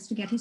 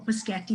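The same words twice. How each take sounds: First: Said in the usual way. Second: "Paschetti", opening sounds of spaghetti jumbled; mispronounced spaghetti. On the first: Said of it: "instead of spaghetti". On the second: Shown as a demonstration. Showing parents a dyslexic sequencing slip, spaghetti mispronounced as "Paschetti". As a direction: say "Paschetti", starting on p before the s. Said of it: "dyslexics very often mispronounce words".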